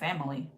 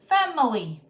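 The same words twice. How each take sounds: First: The word is said quickly with syllables reduced. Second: The word is said with every syllable clearly pronounced.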